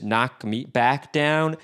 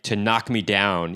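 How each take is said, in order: First: "knock me back down" slow and spaced on the beat; syncopated lyric rhythm. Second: Said in the usual way. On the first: Shown as a demonstration. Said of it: "gives it kind of a cool syncopated feel". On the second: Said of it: "Instead of just saying".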